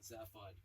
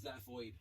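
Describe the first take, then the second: First: The second syllable sounds like 'hod'. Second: The second syllable sounds like 'hoid'. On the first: The speaker calls it right. "not Zaphod" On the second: The speaker calls it wrong. "I read it as Zaphoid"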